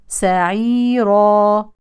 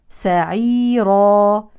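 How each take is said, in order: No difference in how they are said.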